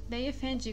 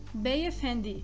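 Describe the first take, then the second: First: The last syllable starts with a soft 'j' sound. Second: The last syllable starts with a plain hard 'd'. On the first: The speaker calls it wrong. "com o som do D, como na palavra dinheiro do português, que é errado" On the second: The speaker calls it right. "O D do turco tem o som de da, de, di"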